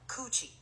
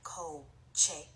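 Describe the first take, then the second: First: The vowels sound like oo and ee. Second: The vowels are a clear o and e. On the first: It sounds like a rude English word. The speaker calls it wrong. "and not coochie" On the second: It means car. The speaker calls it right. "Coche sounds like co-che"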